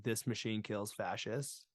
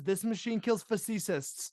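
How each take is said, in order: First: Said in the usual way. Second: "fascists" said as "fa-SEE-sists"; high-pitched, pronounce fascists wrong as fa-see-sists; misspelling read aloud. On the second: Shown as a demonstration. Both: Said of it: "he has fascist spelt wrong".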